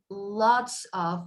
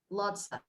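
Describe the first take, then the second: First: Both words are said fully and separately. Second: The words blend into one reduced word. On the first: "instead of saying lots of" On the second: "we say lots of"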